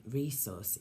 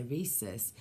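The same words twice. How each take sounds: First: "resource" said the northern way, like re-sauce; "resource" drawn out in a northern accent. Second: Said in the usual way. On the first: Retold or imitated. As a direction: give "resource" that up-north twang, slowly. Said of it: "he said resource is from up north". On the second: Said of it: "and I say rhesus".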